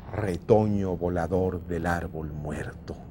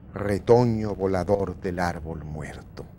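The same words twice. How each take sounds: The two takes are said the same way.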